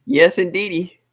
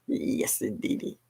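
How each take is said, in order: First: Louder, punchy yes indeedy; loud catchphrase. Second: A laugh then a soft unvoiced yes indeedy; whispered catchphrase. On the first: Host cheering her catchphrase to viewers, loud. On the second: Host softly repeating her catchphrase after a laugh. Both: Real, not acted.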